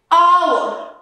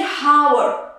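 First: Hour with a silent H, like our; correct pronunciation. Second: Hour with a sounded H, like how-er; wrong pronunciation. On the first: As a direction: say hour starting on the vowel. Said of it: "We're going to say". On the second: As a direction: breathe an H onto hour. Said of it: "we're not going to say hour". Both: Shown as a demonstration.

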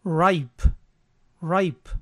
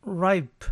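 First: "ripe" as ɹaɪp with a clear diphthong; correct ripe. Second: "ripe" given as the reading to avoid, drawn out; wrong reading. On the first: Teacher gives the correct model word, careful. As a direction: say "ripe" as rye-p. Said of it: "Entonces la pronunciación es". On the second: Teacher shows the confusion to avoid, slow. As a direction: say "ripe" as the mistake. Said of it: "No es". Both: Shown as a demonstration.

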